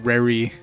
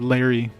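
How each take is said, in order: First: The name starts with an R-like sound. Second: The name starts with a clear L sound. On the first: "they usually use R as kind of like a replacement for L" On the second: "instead of Larry"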